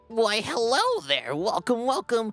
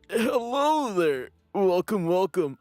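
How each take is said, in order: First: It is said in a put-on character voice. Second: It is said in a plain, ordinary voice.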